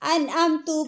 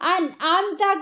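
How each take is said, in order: First: The word ends with a 'u' vowel. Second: The word ends with an 'a' vowel. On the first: The speaker calls it wrong. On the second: The speaker calls it right.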